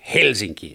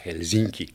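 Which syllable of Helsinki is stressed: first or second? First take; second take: first; second. First: The stress is on the first syllable. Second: The stress is on the second syllable. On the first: The speaker calls it right. "se on Helsinki" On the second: The speaker calls it wrong. "eikä Helsinki"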